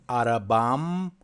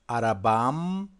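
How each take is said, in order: The two takes are said the same way.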